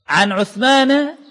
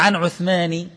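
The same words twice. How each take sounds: First: The name ends with a short 'a' vowel. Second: The name ends with a short 'i' vowel. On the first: The speaker calls it right. "بالفتحة، فتقول عن عثمان" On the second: The speaker calls it wrong. "ولا عن عثمان"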